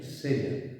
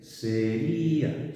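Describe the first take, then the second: First: "seria" short and falling, stress on SE, ria as one glide: SE-rja; two-syllable seria. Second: "sería" stretched very slowly, stressed í split from the a: se-RÍ-a; three-syllable sería. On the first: Teacher finishing the contrast for students, short SE-rja. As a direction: say "seria" fast with the diphthong held together. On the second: Teacher repeating the hiatus for students, very slow se-RÍ-a. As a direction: linger on the í of "sería" to make the hiatus obvious. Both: Shown as a demonstration. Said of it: "fijaos la diferencia".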